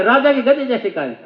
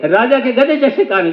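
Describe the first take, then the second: First: Pitched up, straining to shout "राजा के गधे जैसे कान"; full-force mock yell. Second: Mock shout. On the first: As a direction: yell it like a slogan. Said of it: "पूरा जोर लगा के". (नारे की तरह खींचकर चिल्लाना) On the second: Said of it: "जोर जोर से बोले".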